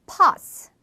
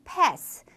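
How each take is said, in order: First: British pass, like pahss; 영국식 pass; British pronunciation. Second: American pass, like pess; 미국식 pass; American pronunciation. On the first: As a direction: pass with a broad ah vowel. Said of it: "영국 영어에서는 pass". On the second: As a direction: pass with a flat ae vowel. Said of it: "미국 영어에서는 pass". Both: Shown as a demonstration.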